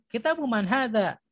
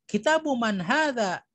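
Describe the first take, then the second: No difference in how they are said.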